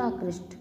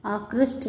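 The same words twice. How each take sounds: First: Said in the usual way. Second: आकृष्ट as the faulty "akrishth"; mispronounced. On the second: Shown as a demonstration. Teacher showing students an error, आकृष्ट mispronounced. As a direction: end आकृष्ट on aspirated th. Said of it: "नहीं होता".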